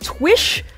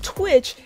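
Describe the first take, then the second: First: The word ends with an 'sh' sound. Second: The word ends with a 'ch' sound. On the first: The speaker calls it right. "There's no extra T in there" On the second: The speaker calls it wrong. "I'm actually pronouncing it wrong. It's not Twitch"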